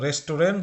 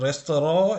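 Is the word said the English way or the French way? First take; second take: English; French. First: It ends in a full 'rent' sound, English-style. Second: It ends in a nasal vowel, French-style. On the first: The speaker calls it wrong. "রেস্টুরেন্ট যদি বলেন তাহলে কিন্তু ভুল উচ্চারণ হবে" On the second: The speaker calls it right. "যেইভাবে ফ্রেঞ্চরা করে রেস্তোরাঁ"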